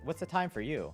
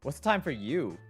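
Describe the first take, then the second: First: It is said in a neutral tone. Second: It is said with a sassy tone.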